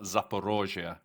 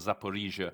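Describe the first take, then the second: First: The second vowel sounds like 'oh'. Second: The second vowel sounds like 'ee'. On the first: This is the Russian form of the name. "Russians call it Zaporozhia" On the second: This is the Ukrainian form of the name. "That's the Ukrainian pronunciation"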